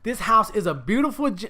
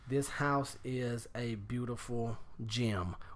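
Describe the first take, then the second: First: It is said expressively, with personality. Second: It is said flatly, like plain reading.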